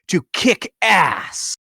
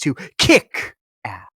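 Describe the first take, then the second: First: The stress falls on the word ass. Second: The stress falls on the word kick. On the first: The speaker calls it wrong. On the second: The speaker calls it right.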